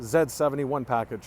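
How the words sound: Z is said as 'zed', the Canadian way.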